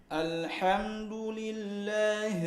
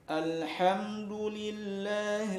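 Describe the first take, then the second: The two takes are said the same way.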